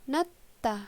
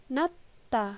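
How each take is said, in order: Both takes have the same delivery.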